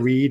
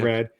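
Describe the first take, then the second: First: The vowel is raised, sounding like 'reed'. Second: The vowel is open, sounding like plain 'red'. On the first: "New Zealand accent of your co-host" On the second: "instead of"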